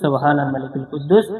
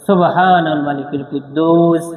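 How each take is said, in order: First: The phrase is said at normal volume and length. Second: The phrase is said loudly with drawn-out sounds.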